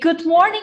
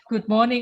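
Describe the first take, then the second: First: The greeting is said with lively, confident energy. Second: The greeting is said shyly, with little energy. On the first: The speaker calls it right. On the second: The speaker calls it wrong.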